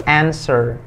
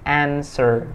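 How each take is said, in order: No difference in how they are said.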